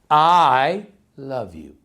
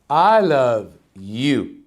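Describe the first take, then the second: First: The stress falls on the word I. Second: The stress falls on the word you. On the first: "Let's start with the first one" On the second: "emphasize in every different word of the sentence"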